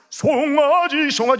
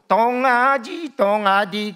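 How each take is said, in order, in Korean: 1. 이 단어는 s 소리로 시작해요. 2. 이 단어는 d 소리로 시작해요. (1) "정확하게" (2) "발음도 잘 안 들어가지고"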